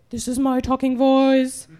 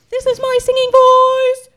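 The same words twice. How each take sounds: First: Very low, level monotone; deep, evenly intoned demonstration voice; talking voice. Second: Sung, intone it like a voice teacher's demo; ringing sustained monotone chant; singing voice. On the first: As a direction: drop far down and hold one deep note. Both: Shown as a demonstration.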